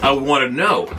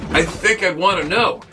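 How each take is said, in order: First: "know" pressed down to a firm falling end; falling stress on know. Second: "know" lifted high on a long rise; rising stress on know. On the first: To viewers, settling it firmly, falling "know". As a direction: plant "know" flat and final. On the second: To viewers, insisting he'd want to hear it, rising "know". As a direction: stretch "know" upward like a question. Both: Real, not acted.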